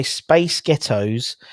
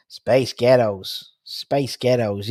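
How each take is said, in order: First: Said in the usual way. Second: Drawn-out mock American accent. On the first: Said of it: "if you say". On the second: Shown as a demonstration. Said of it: "an American accent".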